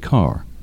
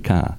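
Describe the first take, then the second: First: It is said with an R sound at the end. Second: It is said with no R sound at the end. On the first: This is how most American speakers say it. "And in American English, mostly people say car" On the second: This is how New England speakers say it. "Unless you're from New England, right? Then you say car"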